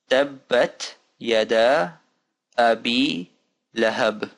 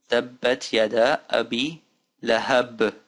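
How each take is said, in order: First: Measured recitation, nominally faster, still drawn out; a bit faster. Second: Slow, careful recitation in short pieces; slow reading. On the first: Teacher repeating the phrase for learners, a bit faster. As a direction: recite it word by word a little more fluently. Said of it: "Now faster". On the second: Teacher putting the phrase together for learners, slow. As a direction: read each word out carefully. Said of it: "Let's do it slowly now". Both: Shown as a demonstration.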